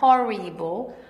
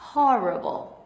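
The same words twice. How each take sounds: First: The vowel after the R sounds like 'ee'. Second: The vowel after the R sounds like 'uh'. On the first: The speaker calls it wrong. "Não é horrible" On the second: The speaker calls it right. "Esse I vira um A porque vem daqui de trás"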